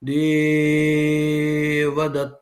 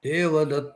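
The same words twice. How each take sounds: First: The first vowel is greatly prolonged. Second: The final vowel is greatly prolonged. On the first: "ఆ ఏకారము గురువు కాబట్టి దానికి ప్లుతం వచ్చింది" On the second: "చివరి ఆకారము ... ప్లుతం వస్తుంది"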